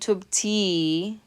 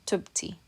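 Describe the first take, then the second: First: The final syllable is overemphasized and stressed. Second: Both syllables carry equal stress. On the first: The speaker calls it wrong. "We're not saying tub ti. You're not overemphasizing or stressing" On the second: The speaker calls it right. "same amount of stress in both of those syllables"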